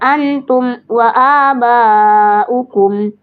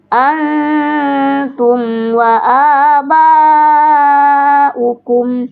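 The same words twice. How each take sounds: First: The m sound is held back and cut off. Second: The m sound flows lightly into the next word. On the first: The speaker calls it wrong. "Mim sukun tidak boleh tertahan suara. ... tidak boleh seperti itu" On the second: The speaker calls it right. "Jadi harusnya alirkan setengah"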